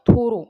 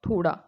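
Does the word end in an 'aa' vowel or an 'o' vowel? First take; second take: o vowel; aa vowel. First: An 'r' sound, ending in 'o'. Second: A flapped 'd' sound, ending in 'aa'. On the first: This is the Braj dialect form. "ओ का प्रयोग होता था, पीछे आ का प्रयोग नहीं होता" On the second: This is the standard Hindi form. "थोड़ा में ड लगता है"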